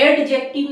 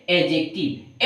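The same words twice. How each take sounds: First: एडजेक्टिव with the D sounded, pitched high; एडजेक्टिव with a hard audible "d" before j; wrong pronunciation demo. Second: एडजेक्टिव with a silent D, pitched lower; एडजेक्टिव with no "d" before the j; correct pronunciation demo. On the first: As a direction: say एडजेक्टिव as "ad-jective", raised. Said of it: "एडजेक्टिव नहीं". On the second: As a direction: say एडजेक्टिव as "a-jective". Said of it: "डी यहाँ पर silent हो". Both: Shown as a demonstration.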